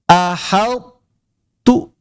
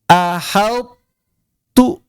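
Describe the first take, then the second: Both takes have the same delivery.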